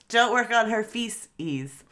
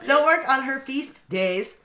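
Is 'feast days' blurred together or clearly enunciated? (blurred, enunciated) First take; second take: blurred; enunciated. First: Feast days is run together, sounding like feces. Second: Feast days is said slowly with each sound clear. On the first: The speaker calls it wrong. "You keep saying feces. It so fast" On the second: The speaker calls it right. "Thank you for the enunciation"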